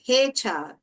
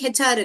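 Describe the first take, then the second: First: The letter H has a long vowel. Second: The letter H has a short vowel. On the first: The speaker calls it right. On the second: The speaker calls it wrong. "ஹெச்ஆர் இல்ல"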